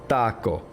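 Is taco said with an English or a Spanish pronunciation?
Spanish. It is said with a Spanish pronunciation. The speaker calls it right. "the proper way you would say it in Spanish"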